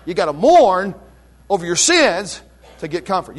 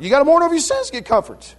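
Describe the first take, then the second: First: Said in the usual way. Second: "You gotta mourn over your sins to get comfort" rushed out higher and fast; fast, higher repeat. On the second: Shown as a demonstration. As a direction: fire the whole line again quickly, pitched up. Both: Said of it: "It's, it's emphatic".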